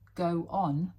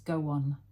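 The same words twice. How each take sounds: First: The two words are said separately, without linking. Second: The words run together with a linking w sound.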